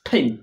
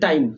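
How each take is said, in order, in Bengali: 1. t ধ্বনিটিতে জোরালো বাতাসের ফুঁ আছে। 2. t ধ্বনিটি সাধারণ, কোনো ফুঁ ছাড়া।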